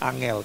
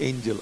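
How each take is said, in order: First: It is said with Javanese sounds, like 'ah-ngel'. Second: It is said with English sounds, like 'ain-jel'. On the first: "Kalau dibaca dengan bahasa Jawa jadi angel" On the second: "Kalau dibaca dengan bahasa Inggris jadi angel"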